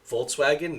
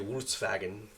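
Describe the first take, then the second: First: The V and W have their English sounds. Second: The V and W sounds are swapped, German style. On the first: "we say Volkswagen" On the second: "they say Volkswagen"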